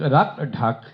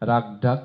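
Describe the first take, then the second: First: The consonants are said with a puff of breath. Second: The consonants are said without a puff of breath. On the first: The speaker calls it right. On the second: The speaker calls it wrong.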